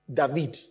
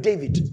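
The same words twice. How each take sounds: First: "David" said dah-VEED; Hebrew pronunciation. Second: "David" said DAY-vid; English pronunciation. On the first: Teacher giving congregation the Hebrew form, "David" as dah-VEED. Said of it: "There's a V inside there". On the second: Teacher naming the word to congregation, "David" as DAY-vid. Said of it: "The word David". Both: Shown as a demonstration.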